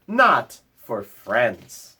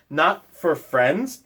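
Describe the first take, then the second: First: Slow, falling and gentle; slow reassurance. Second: Slow, rising with wonder; wondering question. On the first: Bear gently tells the mouse the sign isn't for friends. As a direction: settle it kindly. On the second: The mouse asks Bear back, slow and rising. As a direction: ask it back, hardly believing. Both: Acted.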